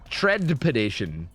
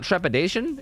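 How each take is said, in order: First: The first syllable sounds like 'tread'. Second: The first syllable sounds like 'trep'. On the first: The speaker calls it right. "it's tread" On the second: The speaker calls it wrong. "It's not trepidation?"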